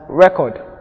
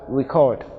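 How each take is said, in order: First: The stress is on the first syllable. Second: The stress is on the second syllable. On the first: It is used as a noun. "We have record" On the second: It is used as a verb. "in the verb form we have record"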